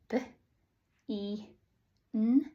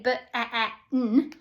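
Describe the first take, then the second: First: The double e is sounded as one sound. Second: The double e is sounded as two sounds. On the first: The speaker calls it right. "Now we can sound it out" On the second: The speaker calls it wrong. "we don't say b, e, e, n. ... that sounds silly"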